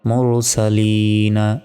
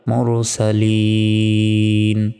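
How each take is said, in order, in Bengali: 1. শব্দটি হ্রস্ব স্বরে শেষ হয়। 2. শব্দটি রুদ্ধ ব্যঞ্জনে শেষ হয়।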